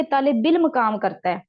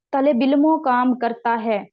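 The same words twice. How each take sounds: First: इल्म with a falling stress as the fix; corrected form. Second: इल्मो said with a falling stress, marked as the error; wrong form. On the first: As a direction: say इल्म with no ending. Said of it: "क्या होना था कि". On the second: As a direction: lean on इल्मो as the mistake. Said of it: "गलत हो गया". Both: Shown as a demonstration.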